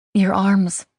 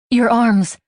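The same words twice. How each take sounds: First: Said in the usual way. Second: "Your arms" blurted out high and loud. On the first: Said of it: "I take a deep breath". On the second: A narrator's reading. Haley blurting to Mike what she finds hot, high and loud. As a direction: let "Your arms" burst out before thinking. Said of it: "I blurt".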